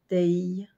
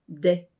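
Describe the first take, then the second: First: The vowel is drawn out into a y-like glide. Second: The vowel is short and plain, without a glide. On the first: "avec un son qui se rapproche de abeille" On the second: "Dag se prononce Day"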